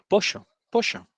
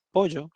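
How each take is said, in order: First: POLLO said as "posho", with a hushing sh, higher; porteño pollo. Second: POLLO with a buzzed 'zh'-like y; Argentine pollo. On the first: Second woman retrying the order with the waiter, porteño "posho" for pollo. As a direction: pitch up, make the ll of pollo a porteño sh. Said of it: "media porteñada". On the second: Customer repeating her order to the waiter, Argentine pollo. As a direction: say pollo as "poʝo", the ll as a voiced fricative. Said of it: "entonces le decía". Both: Retold or imitated.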